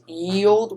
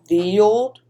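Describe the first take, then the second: First: The word begins with a y sound. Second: The word begins with a th sound. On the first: This is the popular misreading of the old letter. The speaker calls it wrong. "everybody thinks it's" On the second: This is the true reading of the old letter. The speaker calls it right. "but it's really"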